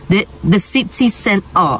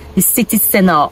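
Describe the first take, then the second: First: It is said in a Nigerian accent. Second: It is said in a non-Nigerian accent. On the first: The speaker calls it wrong. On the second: The speaker calls it right.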